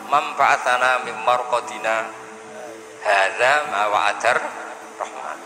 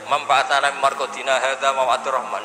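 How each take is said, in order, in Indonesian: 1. Ada jeda setelah "marqadina". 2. Langsung berlanjut tanpa jeda. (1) "Tapi baru kayak disakta menjadi tahu" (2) "andai kan tidak disakta, misalnya sampean maca gebut ae"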